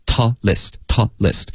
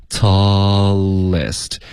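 First: "tallest" chopped into taw, pause, lest; two short separated syllables; wrong mid-word stop. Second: "tallest" drawn out slowly as tall-lest; long vowel flowing into the L; one connected breath. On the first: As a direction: break "tallest" before the L. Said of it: "两个音节中间顿". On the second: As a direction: stretch "tallest" with no break. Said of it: "连贯的一口气把它说出来". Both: Shown as a demonstration.

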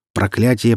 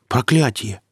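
First: Проклятие stated evenly, no lift; Проклятие said as a grave answer; statement. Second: Проклятие lifted high as a question; puzzled Проклятие with raised pitch; echo question. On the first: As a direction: declare Проклятие as a plain fact. Answer, then echoed as a question. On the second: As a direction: repeat Проклятие back, questioning. Listener echoes the word as question. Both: Acted.

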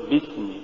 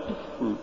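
First: Said in the usual way. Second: بسم with the ب slackened until almost lost; weak ba. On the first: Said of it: "قل". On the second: Shown as a demonstration. Teacher showing what not to say, faint slack ba in بسم. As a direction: barely close the lips for ب in بسم. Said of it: "ولا تقل".

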